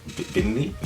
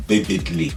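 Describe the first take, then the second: First: "vividly" softer, rising as a question; "vividly" tested with a rising tune. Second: "vividly" said firmly with a falling tune; "vividly" as a sure statement; confirming. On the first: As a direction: try out "vividly" quietly, unsure of it. Questions own word, then confirms it. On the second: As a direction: settle on "vividly", dropping at the end. Confirms the word just questioned. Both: Real, not acted.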